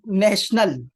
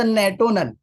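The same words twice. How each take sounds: First: Said in the usual way. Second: نیٹونل, with "tio" as "to" instead of "sh"; misread "national". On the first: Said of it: "نیشنل کو پڑھتا تھا". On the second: Retold or imitated. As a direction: say نیٹونل with a hard t, "nay-TOE-nal". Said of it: "بڑا ہونے تک نیشنل کو پڑھتا تھا".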